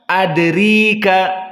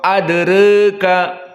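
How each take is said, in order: First: The vowel after r is a full i. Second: The vowel after r leans slightly toward e. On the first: "jika dikasrahkan" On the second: "al-imalah as-sugra ... masih dekat kepada fathah"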